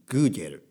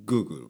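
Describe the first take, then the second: First: It is said with a Spanish pronunciation. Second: It is said with an English pronunciation. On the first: "スペイン語だと" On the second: "英語だとGoogle かな"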